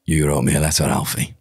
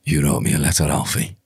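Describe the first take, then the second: First: Lower, gravelly second take; low Birmingham gangster snarl; Tommy Shelby scream. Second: Low, gravelly Peaky Blinders gangster; a low Birmingham gangster line, lightly done; Tommy Shelby scream. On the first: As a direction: growl it like Tommy Shelby, a touch better. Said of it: "a bit better". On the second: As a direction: snarl it at Alfie like Tommy Shelby. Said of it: "one of the screams from". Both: Acted.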